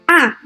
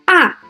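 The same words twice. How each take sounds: First: The pitch falls sharply from high to low. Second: The pitch falls sharply from high to low.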